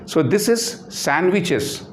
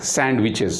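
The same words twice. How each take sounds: First: "sandwiches" said slowly, with the D dropped; correct pronunciation. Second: "sandwiches" said slowly, with a clear D; wrong pronunciation. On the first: Teacher demonstrating the right "sandwiches" to the class. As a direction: model "sandwiches" carefully for the class. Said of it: "not sandwiches". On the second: Teacher showing students the wrong "sandwiches". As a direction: show the mistaken "sandwiches" with the D sounded. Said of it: "Sandwiches is wrong pronunciation". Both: Shown as a demonstration.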